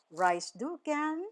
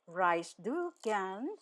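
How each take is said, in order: First: Said in the usual way. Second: "Reist du gern" stretched out slowly; measured, drawn-out model question; slow teaching repeat. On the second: Shown as a demonstration. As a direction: say each word slowly for learners. Teacher repeats phrase slowly for learners.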